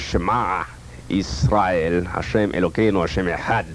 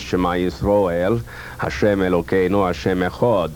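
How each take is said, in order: First: It is said with a glottal Yemenite Hebrew accent. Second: It is said with an Ashkenazic Hebrew accent.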